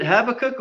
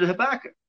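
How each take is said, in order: First: Habakkuk stressed as "HAB-uh-kuk"; first pronunciation variant. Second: Habakkuk stressed as "huh-BACK-uk"; alternative pronunciation. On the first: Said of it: "is it Habakkuk or is it Habakkuk". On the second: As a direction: stress the second syllable of Habakkuk. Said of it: "they can be pronounced different". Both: Shown as a demonstration.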